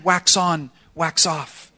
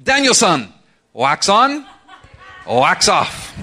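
First: Said in the usual way. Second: Imitated Japanese-accented English, raised and punchy; Miyagi's distinct accent. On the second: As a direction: play the old karate teacher's Japanese accent. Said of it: "in a very distinct accent".

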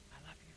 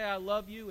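First: Very soft, low whisper. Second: Said in the usual way. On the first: Acted. Somebody sitting next to you, whispering in your ear. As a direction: whisper it tenderly close to an ear. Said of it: "They whisper in your ear".

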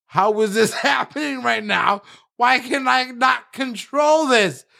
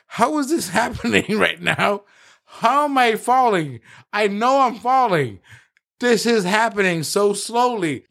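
First: Much higher shouted question, laughing then slowing; panicked shout. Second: Higher, laughing through a stunned question; bewildered disbelief. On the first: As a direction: yell out helpless disbelief. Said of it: "he's like". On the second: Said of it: "I looked at him and I was like". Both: Retold or imitated.

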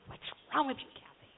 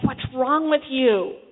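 First: Softer self-reproach, under the voice; self-berating. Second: Loud, slow scolding of oneself; self-berating. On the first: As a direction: put yourself down quietly, as if to yourself. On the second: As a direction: tear into yourself, drawn out. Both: Retold or imitated. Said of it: "in a very tearing myself down way".

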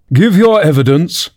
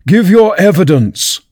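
First: High, commanding king; king's first order. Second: High, slow angry command. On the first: The king orders the nervous Hatter to testify, commanding. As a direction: order the witness at normal volume. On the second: The king repeats his order to the Hatter, angrily. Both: A narrator's reading. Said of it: "the king repeated angrily".

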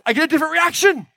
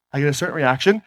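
First: Much higher pitched, lifted voice; different tone of voice. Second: One tone of voice. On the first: Speaker on stage demonstrating how a higher tone changes the reaction, high-pitched voice. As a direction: jump the voice way up high to show the contrast. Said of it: "And when I speak like this". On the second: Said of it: "when I speak in this tone of voice". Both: Shown as a demonstration.

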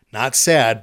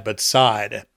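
First: "sad" with a short flat a like the English word; wrong way, said like "sad". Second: "Saad" drawn out, close to "side"; correct name pronunciation. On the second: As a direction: give "Saad" a long vowel, not "sad". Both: Shown as a demonstration.

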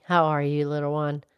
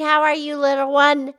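First: Much lower cow voice asking kindly; Mildred the cow. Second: Said in the usual way. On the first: Acted. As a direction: drop the pitch low as the cow. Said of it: "Mildred the Moo Moo Cow".

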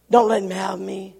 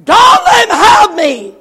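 First: Said in the usual way. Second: High, drawn-out scream of terror; slow, full-force panicked scream; terrified cry. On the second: Retold or imitated. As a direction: cry out desperately for protection. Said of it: "The young man cried".

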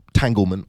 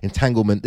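First: Entanglement stumbled, start swallowed; fumbled word. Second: Entanglement said in full, carefully; corrected word. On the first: Narrator trips over the word entanglement, fumbling. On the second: Narrator corrects himself, saying entanglement in full. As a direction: get entanglement right this time. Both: Shown as a demonstration. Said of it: "I can't even say the blooming word".

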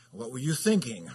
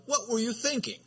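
First: A little bite and sarcasm, a touch louder; mild sarcastic scold. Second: High, exasperated parent's question; mock exasperated parent; parent scolding. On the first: Shown as a demonstration. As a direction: needle the child with a sarcastic edge. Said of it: "you put a little bite to it, a little sarcasm". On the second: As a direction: scold a child with a rhetorical question. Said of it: "a rhetorical question like".

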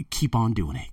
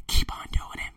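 First: Said in the usual way. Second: Hushed repeat of keep on doing it; whisper. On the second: Shown as a demonstration. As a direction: whisper it like a secret dare. Taunting his doubters.

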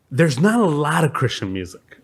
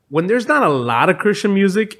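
First: Said in the usual way. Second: Not pushed up high and held; stress on not. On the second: Shown as a demonstration. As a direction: hit the word not hard. Point restated with emphasis.

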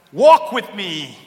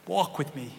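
First: Slow, louder, drawn-out invitation; loud slow call. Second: Softer, lower echo of the line; soft repeat. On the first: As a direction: call it out slowly. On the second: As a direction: bring it down to a hush. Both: Shown as a demonstration. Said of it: "repeats the line differently".

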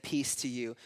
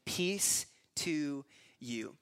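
First: Said in the usual way. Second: "Peace to you" drawn out word by word; slow, solemn greeting. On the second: Acted. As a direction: stretch "Peace... to... you" very slowly. First reading of Jesus' greeting.

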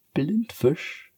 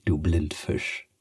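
First: Higher, playful Blindfisch falling; teasing cat. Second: Slow, lower teasing of du Blindfisch; teasing cat. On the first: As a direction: toss Blindfisch at her lightly. Cat teases again. (hoch und verspielt: Blindfisch) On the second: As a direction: drawl du Blindfisch at her. Cat teases Sophia. (langsam und tiefer neckend: du Blindfisch) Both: Acted.

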